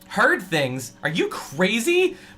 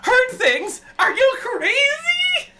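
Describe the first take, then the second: First: It is said in a normal voice. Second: It is said in a high, shrill voice.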